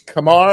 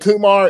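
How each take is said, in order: First: The name rhymes with Lamar. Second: The name does not rhyme with Lamar. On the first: The speaker calls it right. "it's Kamar" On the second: The speaker calls it wrong. "some people have been saying Kumar"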